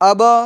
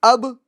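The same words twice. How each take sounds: First: The final b is followed by a vowel sound. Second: The final b ends with a short bounce only. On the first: The speaker calls it wrong. "कलकला ऐसा भी नहीं करना है ... हरकत उस पर आ जाएगी" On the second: The speaker calls it right. "बल्कि"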